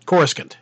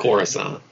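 First: "Coruscant" in two beats, CORE-skint; their old pronunciation. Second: "Coruscant" in three beats, CORE-uh-sahnt; correct pronunciation. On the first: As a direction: say "Coruscant" as CORSE-kund, middle vowel dropped. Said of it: "we always pronounced it". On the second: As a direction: say "Coruscant" with soft s and open 'sahnt'. Contrasts real pronunciation with old one. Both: Shown as a demonstration.

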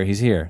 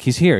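First: Said in the usual way. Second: Excited call. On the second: Retold or imitated. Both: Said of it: "they're like".

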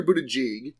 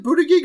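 First: "Buttigieg" with a soft middle G as in "jeep"; soft G pronunciation. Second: "Buttigieg" with a hard middle G as in "geek"; hard G pronunciation. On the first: Offering co-hosts the other option, "Buttigieg" said with soft G. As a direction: say "Buttigieg" with a J sound, "BOO-tuh-jeeg". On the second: Asking co-hosts about the name, "Buttigieg" said with hard G. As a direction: say "Buttigieg" with both Gs hard, "BOO-tuh-geeg". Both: Shown as a demonstration. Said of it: "is it Buttigieg or Buttigieg?".

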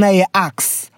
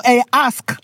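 First: "ask" flipped to sound like "axe"; slow, deliberate "axe" for "ask". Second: "ask" said with the s before the k; slow, deliberate "ask"; careful "ask". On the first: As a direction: say "ask" with the k before the s. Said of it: "one of them means murder". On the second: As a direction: pronounce "ask" carefully, ending s-k. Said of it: "The word ask". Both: Shown as a demonstration.

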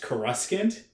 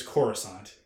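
First: Coruscant as "kuh-RUSK-ant", stress on the middle; old mistaken pronunciation. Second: Coruscant as "CORE-uh-sahnt", stress on the first syllable; film pronunciation. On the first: Recalling what fans all thought, Coruscant as kuh-RUSK-ant. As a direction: say Coruscant with a hard "skant" ending. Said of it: "We all thought it was pronounced". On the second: Revealing how it turns out, Coruscant as CORE-uh-sahnt. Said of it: "it turns out that it's Coruscant". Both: Shown as a demonstration.

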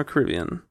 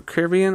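First: "Caribbean" as kuh-RIB-ee-un; "Caribbean" with main stress on the second syllable, RIB; alternative pronunciation. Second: "Caribbean" as care-ih-BEE-un; "Caribbean" with main stress on the third syllable, BEE; first pronunciation. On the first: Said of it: "I'm fine however you say it". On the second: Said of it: "is it the Caribbean or Caribbean". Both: Shown as a demonstration.

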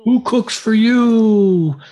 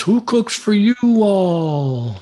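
First: High, slow hooting owl voice; barred owl call. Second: High, slow Southern drawl hoot; Southern owl call. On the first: Imitating the barred owl for a caller, high slow hoot. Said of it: "He was saying". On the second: Imitating a barred owl with a Southern accent for a caller. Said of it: "if he's from the South". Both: Retold or imitated.

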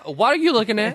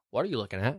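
First: High, indignant question; indignant quote. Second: Tag. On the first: Vivian to the waiter, high and indignant. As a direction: snap at the staring waiter. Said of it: "She just puts her hand". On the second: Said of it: "And she goes". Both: Retold or imitated.

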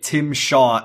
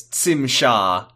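First: Said in the usual way. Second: "Tim" begun with a ts sound, like "Tsim"; alien pronunciation. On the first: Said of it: "you could extrapolate". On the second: Shown as a demonstration. Quoting someone's alien name, "Tim" said as "Tsim". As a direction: say "Tim Shaw" as "Tsim Sha". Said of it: "someone's alien name was".

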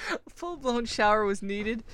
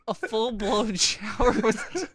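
First: Said in the usual way. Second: Slow, high, laughing words; cracking up, barely getting it out. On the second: Real, not acted. Restart while cracking up.

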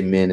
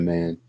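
First: "men" said with a short e, the Kiwi way. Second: "man." said with the usual flat a; standard "man". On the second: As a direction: say "man." with an a vowel. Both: Shown as a demonstration. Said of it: "you say "men" instead of "man".

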